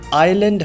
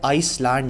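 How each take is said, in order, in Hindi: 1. इस शब्द में कोई s ध्वनि नहीं बोली जाती। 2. इस शब्द में s ध्वनि बोली जाती है। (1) "आइलैंड होता है" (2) "आइसलैंड नहीं होता"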